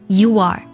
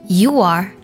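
No difference in how they are said.

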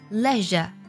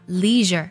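First: It is said with a British pronunciation. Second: It is said with an American pronunciation. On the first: "在英式的发音当中呢它读作leisure" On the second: "在美式的发音当中呢它却读作了leisure"

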